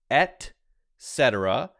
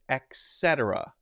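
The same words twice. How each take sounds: First: It begins with an 'et' sound. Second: It begins with an 'ex' sound. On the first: The speaker calls it right. "It's pronounced et cetera" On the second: The speaker calls it wrong. "it's often pronounced with an X"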